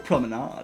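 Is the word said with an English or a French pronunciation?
French. The word is pronounced the French way.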